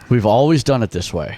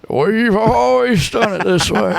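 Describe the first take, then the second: First: It is said in a plain, normal voice. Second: It is said in a put-on old person's voice.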